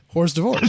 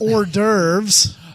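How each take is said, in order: First: It is read out letter by letter, English-style. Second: It is said with the usual French-style pronunciation.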